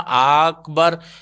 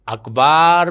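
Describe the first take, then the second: First: The second vowel is kept short. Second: The second vowel is drawn out long. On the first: It means greatest. The speaker calls it right. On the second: It means a drum rather than greatest. The speaker calls it wrong.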